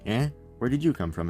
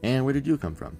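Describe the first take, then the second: First: There is a pause after "eh". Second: There is no pause after "eh".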